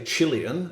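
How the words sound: It is said with a British pronunciation. "as the British say"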